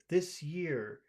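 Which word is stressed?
this. The stress falls on the word this. The speaker calls it wrong. "it just doesn't sound good here"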